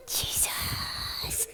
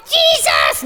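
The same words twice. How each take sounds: First: Exaggerated breathy puppet whisper; barely audible stage whisper. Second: High-pitched puppet yell; shrill, over-eager shout. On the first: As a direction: whisper it, drawing the name out. Hushed retake after being too loud. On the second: Acted. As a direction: shriek it out like an excited crowd. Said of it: "all the people started yelling at him".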